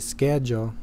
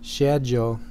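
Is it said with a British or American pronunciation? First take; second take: American; British. First: It is said the North American way. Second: It is said the British English way.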